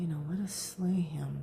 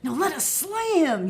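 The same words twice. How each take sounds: First: It is said quietly, in a low murmur. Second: It is said loudly and forcefully. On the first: The speaker calls it right. "so they're saying this in a murmur" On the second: The speaker calls it wrong. "so it's not like"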